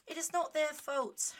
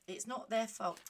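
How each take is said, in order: First: "It is not their fault" slow, higher and louder; emphatic repeat. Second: Said in the usual way. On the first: Real, not acted. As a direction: spell out "It is not their fault" word by word, forcefully.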